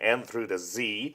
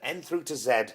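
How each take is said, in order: First: The last letter is said 'zee', American style. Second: The last letter is said 'zed', British style.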